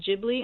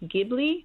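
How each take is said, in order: First: The word is said a different, non-Italian way. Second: The word is said the Italian way. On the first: This is how the name was mispronounced and stuck. The speaker calls it wrong. "he mispronounced it Ghibli" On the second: This is how the word is said in Italian. The speaker calls it right. "the word in Italian is pronounced Ghibli"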